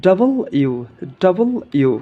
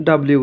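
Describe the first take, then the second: First: "ডাবল ইউ" as two full words; corrected letter W. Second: Said in the usual way. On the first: Shown as a demonstration. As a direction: separate "ডাবল" from "ইউ" clearly. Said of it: "সঠিক উচ্চারণ হবে". ("ডাবল ইউ" আলাদা দুই শব্দে) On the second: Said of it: "ডাব্লিউ উচ্চারণ করি".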